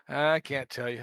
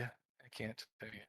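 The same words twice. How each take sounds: First: Hissing reptile voice; lizard voice. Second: Low, quiet hissing lizard; hissing reptile growl. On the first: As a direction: hiss it like a lizard. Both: Pretend. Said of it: "Puts in lizard voice".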